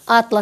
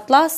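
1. Наголос на першому складі. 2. Наголос на другому складі. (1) "це буде набір карт географічних" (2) "це тканина"

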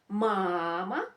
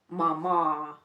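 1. Наголос на першому складі. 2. Наголос на другому складі.

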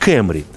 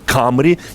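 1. Назву вимовляють по-американськи. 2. Назву вимовляють за японським зразком. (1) "читайте її так, як читають, наприклад, американці" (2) "Хочете Camry від японського камурі корона"

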